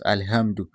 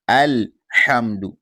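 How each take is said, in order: First: The mistaken alhamdu; wrong pronunciation. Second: Alhamdu slowly, with a clear throaty ha; correct pronunciation. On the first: Teacher showing the mistaken alhamdu. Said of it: "It is not alhamdu". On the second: Teacher showing the correct Alhamdu, slowly. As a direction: drag out Alhamdu, breathy ha. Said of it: "the correct reading is alhamdu". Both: Shown as a demonstration.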